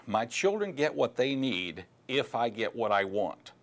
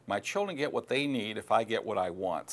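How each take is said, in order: First: Slow, deliberate, every word weighted; stating the failure thought. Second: Said in the usual way. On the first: Shown as a demonstration. Coach presenting failure thought one, slow and deliberate. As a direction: lay out the selfish thought slowly and pointedly. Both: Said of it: "Failure thought number one".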